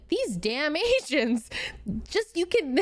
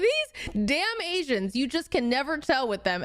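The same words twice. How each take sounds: First: Quoting the doctor, breaking into laughter; can't hold back the giggles mid-quote; slow quote broken up by laughter; laughing through it. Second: Said in the usual way. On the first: Retold or imitated. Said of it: "sorry, I can't say this without laughing". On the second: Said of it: "I can't say this without laughing".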